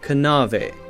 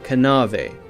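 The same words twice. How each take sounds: First: The K at the start is sounded. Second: The same.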